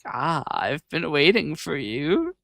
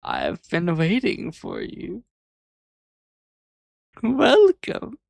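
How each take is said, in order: First: Mustache twirling villain. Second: Slow, hammed-up evil boss welcome; villain drawing out the welcome; mustache twirling villain. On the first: Retold or imitated. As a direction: purr it like a scheming villain. Villain turns his chair around. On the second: Repeats the villain greeting.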